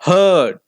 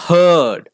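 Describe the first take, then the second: Both takes have the same delivery.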